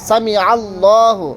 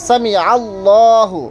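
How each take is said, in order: No difference in how they are said.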